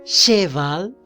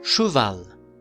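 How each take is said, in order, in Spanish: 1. La primera vocal es un sonido 'eh' claro. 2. La primera vocal es un sonido 'uh' redondeado. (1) "está muy mal" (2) "¿Cómo pronuncio?"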